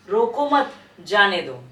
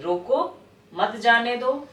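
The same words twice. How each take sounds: First: Slow, louder रोको मत together, break, then जाने दो; pause after मत. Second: Slow रोको, clear break, then मत जाने दो as one phrase; pause after रोको. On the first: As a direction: split it after मत, leaving जाने दो on its own. (मत के बाद विराम, धीरे) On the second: (रोको के बाद विराम, धीरे) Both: Shown as a demonstration. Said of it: "आगे पीछे आपका विराम का प्रयोग".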